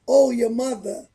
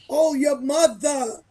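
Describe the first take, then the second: First: The New York accent sounds relaxed and unforced. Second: The New York accent sounds overemphasized and forced. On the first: The speaker is a native New Yorker talking normally. The speaker calls it right. "We naturally say mother" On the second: The speaker is trying to sound like a New Yorker. The speaker calls it wrong. "we don't talk like that. We don't need to emphasize it"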